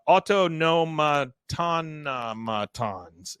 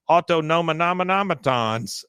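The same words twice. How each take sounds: First: Autonomatonomatons said slowly, syllables repeated; other mangling. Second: Autonomanometons garbled as au-to-no-ma-NO-me-tons; mangled word. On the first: Shown as a demonstration. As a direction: drag out autonomatonomatons, doubling the middle. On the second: Retold or imitated. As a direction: say autonomanometons with too many syllables, tripping over it. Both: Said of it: "it's pronounced completely differently".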